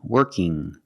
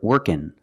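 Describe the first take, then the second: First: The word ends in a nasal ng sound. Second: The word ends in a plain n sound. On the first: "it makes a sound mm" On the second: "You can say working or workin' with the N sound"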